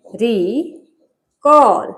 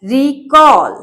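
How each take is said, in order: First: recall slowly, with a long pause after रि; teacher sounding out recall in two slow pieces; recall syllable by syllable. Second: Said in the usual way. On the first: Shown as a demonstration. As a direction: split recall into two drawn-out parts, रि and कॉल. Teacher splits word into syllables.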